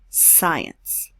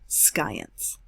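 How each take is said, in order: First: The word begins with a plain S sound. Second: The word begins with an SK sound. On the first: The speaker calls it right. "we don't pronounce the C. We say science" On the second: The speaker calls it wrong. "not science"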